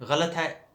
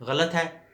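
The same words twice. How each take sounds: No difference in how they are said.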